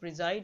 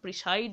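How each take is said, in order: First: The middle consonant is a buzzing z sound. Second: The middle consonant is a hissing s sound. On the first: The speaker calls it right. "প্রিজাইড উচ্চারণ হবে" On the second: The speaker calls it wrong. "প্রিসাইড উচ্চারণ হবে না"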